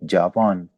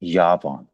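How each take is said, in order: First: The word begins with a j sound. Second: The word begins with a y sound. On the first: "English में हम पढ़ते हैं ना जे" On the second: "German में"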